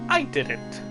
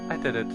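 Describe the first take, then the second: First: The voice is firm and commanding. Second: The voice is soft and not commanding. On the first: The speaker calls it right. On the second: The speaker calls it wrong.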